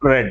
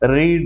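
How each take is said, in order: First: The vowel is short, like 'red'. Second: The vowel is long, like 'reed'. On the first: It is the past form. "రీడ్ రెడ్ రెడ్ అంటాం" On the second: It is the present form. "రీడ్ రెడ్ రెడ్ అంటాం"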